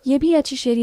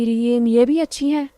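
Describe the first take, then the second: First: है slurred into शेरी, a stumbling misread; misread line. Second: Said in the usual way. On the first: Real, not acted. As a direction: trip over the last word, saying शेरी instead of है. (गलती से है की जगह शेरी बोलना)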